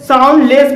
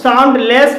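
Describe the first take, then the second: First: The d sound is silent, parts run together. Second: The d sound is pronounced before the second part. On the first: The speaker calls it right. "इसे sound less बोलेंगे" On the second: The speaker calls it wrong. "इसे हम sound less नहीं बोलेंगे"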